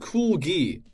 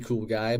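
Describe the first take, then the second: First: The second word sounds like 'gee'. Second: The second word sounds like 'guy'. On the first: A playful misreading of the name. The speaker calls it wrong. "I felt like saying it like that" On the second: The name as intended. The speaker calls it right. "It's actually Cool Guy"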